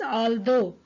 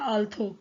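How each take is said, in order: First: The middle consonant is a soft 'd'-like sound. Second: The middle consonant is a hard aspirated 'th'. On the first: The speaker calls it right. "It is actually pronounced as आल्दो" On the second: The speaker calls it wrong. "The word is not आल्थो"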